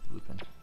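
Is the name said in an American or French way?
American. The name is said the American way. "the Americanization of it is Lupin"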